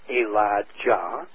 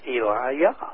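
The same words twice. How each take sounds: First: The middle consonant is a J sound. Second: The middle consonant is a Y sound.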